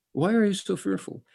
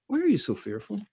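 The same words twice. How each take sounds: First: Are pressed in Why are you so fearful; stressed are. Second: You lifted in Why are you so fearful; stressed you. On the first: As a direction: push the word are. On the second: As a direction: lean on you in the question. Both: Shown as a demonstration. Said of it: "repeats the question".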